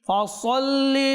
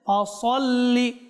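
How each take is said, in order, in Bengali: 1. s-এর উচ্চারণ ভারী, জোরালো s। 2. s-এর উচ্চারণ ভারী, জোরালো s।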